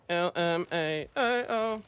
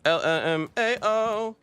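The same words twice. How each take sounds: First: Drawn-out mock read. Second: Mock laugh reading. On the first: Repeats chat slower, stretched. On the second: Reading chat aloud, mocking.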